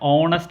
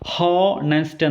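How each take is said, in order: First: The word begins with a vowel, no h. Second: The word begins with an h sound. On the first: The speaker calls it right. "ഓണസ്റ്റ് എന്നാണ് pronounce ചെയ്യുന്നത്" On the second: The speaker calls it wrong. "അല്ലാതെ ഹോണസ്റ്റ് എന്നല്ല"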